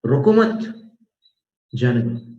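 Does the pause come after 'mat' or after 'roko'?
after mat. The pause comes right after 'mat'. Do not stop him; let him go.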